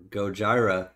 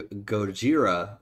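First: Gojira, middle syllable rhyming with "sky"; Gojira with "jai". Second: Gojira, middle syllable rhyming with "see"; Gojira with "jee". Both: Shown as a demonstration. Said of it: "not sure how to pronounce it".

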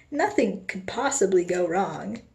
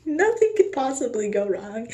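First: Said in the usual way. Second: Nervous laughing. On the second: Acted. Nervous repeat after a laugh.

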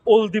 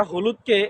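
First: অলদি with the h dropped, ending in i; Gazipur dialect. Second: Said in the usual way. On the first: Shown as a demonstration. (গাজীপুরের উচ্চারণে অলদি, হ ছাড়া) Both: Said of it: "গাজীপুরের আঞ্চলিক ভাষায়".

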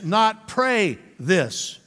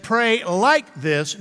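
First: Slow, with weight on "pray" and "this"; contrasting stress. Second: "like" leaning out, slow and emphatic; stress on like. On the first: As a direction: set "pray" and "this" apart as the wrong version. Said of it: "Because Jesus said". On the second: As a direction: make "like" the word that matters. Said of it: "the emphasis gotta be the like". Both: Shown as a demonstration.

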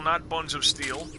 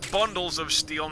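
First: Not slightly raised and slowed, then buns of steel; slow, stressing not; not buns of steel, a slow correction that leans on not. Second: Bundles said clearly and firmly, with the stress on Bundles. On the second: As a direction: set Bundles of steel apart from buns, stressing Bundles. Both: Shown as a demonstration.

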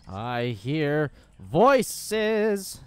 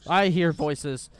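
First: "I hear voices" very slow, each word stretched; drawn-out. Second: Said in the usual way. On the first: Real, not acted. Player hearing voices in game, "I hear voices" slowly drawn out.

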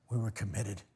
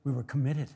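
First: Softer, lower repeat; quiet echo. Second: Said in the usual way. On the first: Acted. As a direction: let it fall away.

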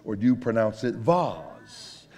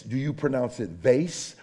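First: "vase" with a broad ah and z ending; drawn-out, fancy "vase", vahz. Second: "vase" with a long ay, as in face; everyday American "vase", vayss; vase rhyming with face. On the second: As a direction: say "vase" to rhyme with base. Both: Shown as a demonstration. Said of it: "we were talking about vase".

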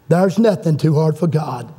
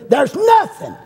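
First: Said in the usual way. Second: High cry peaking on "nothing"; emphatic preaching cry. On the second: Real, not acted. Preacher rousing the congregation, high emphatic cry.

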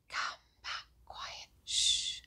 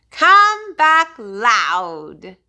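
First: Whispered softly. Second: Loud call. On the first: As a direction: breathe it out in a whisper. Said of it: "one named Quiet". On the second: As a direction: belt it out like a shout. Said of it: "one named Loud". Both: Shown as a demonstration.

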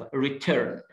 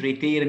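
First: "Return" with an "er" vowel in the second syllable; correct pronunciation. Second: "return" with the second vowel mispronounced; wrong pronunciation. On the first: Teacher modelling the word, correctly pronounced "Return". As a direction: say "Return" as "ree-tern". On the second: Teacher showing the mistake, mispronounced "return". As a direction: say "return" as "ree-tayr". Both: Shown as a demonstration. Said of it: "مش return".

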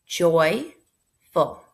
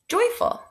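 First: Said in the usual way. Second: Bright answer. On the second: Shown as a demonstration. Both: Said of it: "What's the word?".

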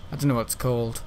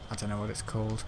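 First: Said in the usual way. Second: Much softer, lower, to himself; muttered repeat. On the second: Real, not acted. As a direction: mutter it under your breath.

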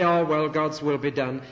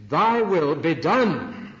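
First: Mock-resigned shrug of a sigh, stress on "will". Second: "Thy will be done" slow and loud, punching "done"; a resolute call to act, leaning hard on "done"; stress on DONE. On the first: Preacher mimics people who accept it as resignation. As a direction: say "God's will be done" as if giving up. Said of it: "accept it with resignation". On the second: Shown as a demonstration. Preacher shows the congregation the activist reading, stress on "done". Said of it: "The emphasis is on the word done".

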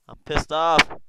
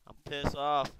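First: I'm pissed off, repeated much louder with a punch on off; loud annoyed repeat. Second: Said in the usual way. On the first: Real, not acted.

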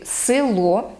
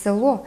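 First: Село with e raised to и, "sylo"; unstressed first vowel of село turned to и; dialect село. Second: Said in the usual way. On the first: Shown as a demonstration. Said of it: "кажуть «село»". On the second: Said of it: "замість «село»".

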